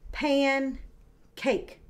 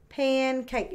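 First: Pancake slowly broken into pan, pause, cake; pan, a clear gap, then cake in pancake; split into syllables. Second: Said in the usual way. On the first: Shown as a demonstration. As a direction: say pancake as two separate beats. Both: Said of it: "the first syllable and the last syllable".

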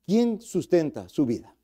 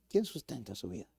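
First: Said in the usual way. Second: Hushed repeat. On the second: Acted. Question repeated softly.

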